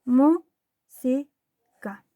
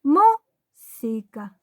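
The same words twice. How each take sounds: First: Música as mú, si, ca with long pauses; evenly spaced teacher's Música; split into syllables. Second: Música in syllables, MÚ punched louder; slow split Música with a strong MÚ; stressed first syllable. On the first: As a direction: break Música into three slow, separate syllables. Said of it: "Separamos en sílabas". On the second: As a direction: hit mú hard, then si, ca apart. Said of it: "Dónde está el golpe de voz". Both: Shown as a demonstration.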